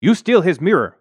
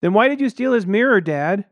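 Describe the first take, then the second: First: Put-on high, loud old Chinese woman; accusing old maid. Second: Put-on high, loud kid voice; piping little son. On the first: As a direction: accuse him sharply as the maid. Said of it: "the woman said". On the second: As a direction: pipe up and expose Dad. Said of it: "My son piped up". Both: A narrator's reading.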